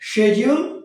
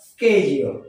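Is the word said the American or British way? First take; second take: British; American. First: It is said with a British pronunciation. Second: It is said with an American pronunciation. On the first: "যখন শিডিউল সেটা হচ্ছে British pronunciation" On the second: "যখন এটা স্কেডিউল তখন American pronunciation"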